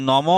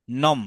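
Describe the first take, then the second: First: "নম" বলুন শেষে টানা অ দিয়ে, "নমো"-র মতো; "নম"-এর ম-এর পরে স্বরধ্বনি খোলা রাখুন; খোলা অ-যুক্ত উচ্চারণ. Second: "নম" বলুন ম-এ থেমে, "নম্"-এর মতো; "নম"-এর শেষে কোনো স্বর নয়; হসন্ত উচ্চারণ. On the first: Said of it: "এখানে কিন্তু নম বলবো না আমরা". ("নম" শব্দের শেষের অ স্পষ্ট করে টেনে বলা) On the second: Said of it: "যেহেতু হর্ষ". ("নম" শব্দটা ছোট করে ম-এ বন্ধ) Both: Shown as a demonstration.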